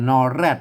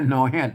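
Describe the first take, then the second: First: The second syllable starts with an r sound. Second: The second syllable starts with an h sound. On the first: This is the Central Thai way of saying it. "ถ้าไทยก็นอแรด" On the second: This is the Northern Thai way of saying it. "เปิ้นออกเสียง"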